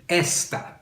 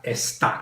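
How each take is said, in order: First: "Esta" stressed on the first syllable, ES-ta. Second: "esta" stressed on the last syllable, es-TA. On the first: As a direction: hit the ES of "Esta", leaving TA light. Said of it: "Notice how I'm pronouncing it". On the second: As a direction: punch the TA of "esta", slowly. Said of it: "not esta". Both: Shown as a demonstration.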